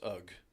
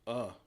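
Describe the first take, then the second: First: The word ends with a g-like sound. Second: The word ends on a plain vowel. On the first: "you can pronounce that as ugh" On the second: "could you also not pronounce it as uh"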